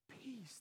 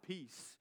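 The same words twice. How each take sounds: First: The word is said earnestly, like a blessing. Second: The word is tossed off in a casual, cool way. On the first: It is a real blessing spoken over someone. The speaker calls it right. "but peace" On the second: It is a throwaway goodbye. The speaker calls it wrong. "Not just like peace, right? Not the way that we do it. Not just like trying to be cool"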